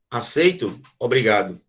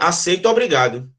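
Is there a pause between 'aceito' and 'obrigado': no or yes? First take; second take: yes; no. First: There is a pause between the two words. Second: The two words run together without a pause. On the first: The speaker accepts and says thanks. "Ó a pausa" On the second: The speaker was forced to accept. "você aceitou de forma obrigada"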